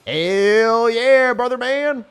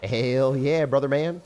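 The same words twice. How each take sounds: First: All-out high, loud yell; full savage mode. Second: Raised, higher rallying call; warming-up cheer. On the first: Player sending a rage attack, savage full-throated yell. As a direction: let it rip at full savage force. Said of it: "full, full savage mode". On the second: Player psyching up for a rage attack, half-unleashed cheer. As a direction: lift the pitch and volume, holding some back. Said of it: "full savage mode". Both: Real, not acted.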